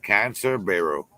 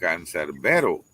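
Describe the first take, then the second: First: The name is read as two English words. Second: The name is said as one Spanish word. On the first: "I look at it and I can only see Cancer Barrow" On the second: "you pronounce it Cancerbero"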